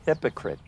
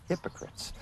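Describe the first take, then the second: First: Said in the usual way. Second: Hypocrites whispered with no voice. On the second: Shown as a demonstration. Repeating the word for effect.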